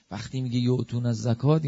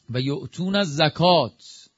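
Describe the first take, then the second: First: Said in the usual way. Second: Slow, measured recitation of the Arabic verse; Quranic recitation. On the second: Shown as a demonstration. Preacher reciting the verse to the congregation, slowly intoned. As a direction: intone الزکات slowly, falling at the end.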